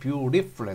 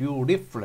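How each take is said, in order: First: The t in the middle is a soft r-like flap. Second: The t in the middle is a soft r-like flap.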